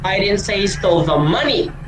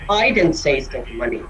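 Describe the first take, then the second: First: The word 'money' is stressed. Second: The word 'I' is stressed. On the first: Something other than money was stolen. "Di ko sinasabi na pera yung ninakaw niya" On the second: Someone else said it. "hindi ako ang nagsabi"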